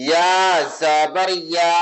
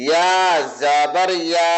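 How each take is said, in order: Both takes have the same delivery.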